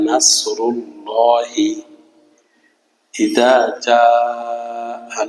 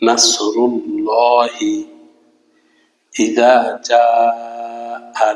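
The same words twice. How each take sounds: No difference in how they are said.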